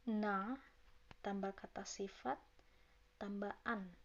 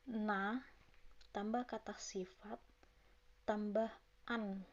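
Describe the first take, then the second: No difference in how they are said.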